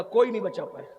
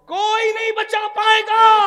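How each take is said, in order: First: Said in the usual way. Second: کوئی نہیں بچا پائے گا shouted high and loud; preacher's shouted threat; shouted warning. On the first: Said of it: "repeated, then shouted". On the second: Shown as a demonstration. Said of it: "repeated shouted".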